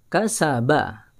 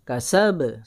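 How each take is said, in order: First: The final ba ends in a full open vowel. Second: The final ba ends in a brief closed echo. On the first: The speaker calls it wrong. "Kalau rahang mulut dibuka, maka e, tetap menjadi huruf fathah" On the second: The speaker calls it right. "ketika qalqalah, rahang mulut tidak perlu dibuka"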